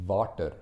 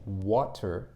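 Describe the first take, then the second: First: "water" begun with a V sound, as Tamil speakers do. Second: Said in the usual way. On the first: Shown as a demonstration. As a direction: say "water" with a V in place of the W. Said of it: "that would be the V sound". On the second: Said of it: "instead of saying water".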